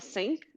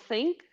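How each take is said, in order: First: It is said with a German accent. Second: It is said with a British accent. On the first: "os alemães falam" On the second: "ingleses falam think"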